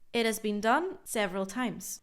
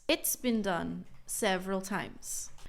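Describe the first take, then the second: First: The words 'it has' are said in full. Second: The words 'it has' are contracted to 'it's'.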